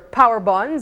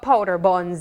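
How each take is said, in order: First: It is said fast with the d sound dropped. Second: It is said carefully with the d sound.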